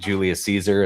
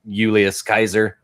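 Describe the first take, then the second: First: The name begins with an S sound. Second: The name begins with a K sound. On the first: The speaker calls it wrong. "isn't Julius Caesar" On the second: The speaker calls it right. "It's like Julius Kaiser is, you know, how you actually say it"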